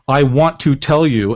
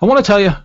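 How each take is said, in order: First: Each word is said clearly and separately. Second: The words are run together into one blur. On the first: "The script says" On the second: "It's just all one big mashup of sounds"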